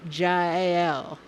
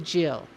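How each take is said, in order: First: The name is said slowly and carefully. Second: The name is said quickly and loosely. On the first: The speaker calls it right. "but actually it's Jael" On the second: The speaker calls it wrong. "If I go fast, I say Jill"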